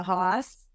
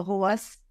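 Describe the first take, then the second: First: "hoss" with an open "ah" vowel and no R; Boston "hoss". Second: "horse" with a rounded "aw" and no R; Boston "horse". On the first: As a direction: say "hoss" like part of Boston, R dropped. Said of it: "depending on where in Boston you're from". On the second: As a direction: say "horse" as "hawse", Boston style. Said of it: "it's either a hoss, a horse". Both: Shown as a demonstration.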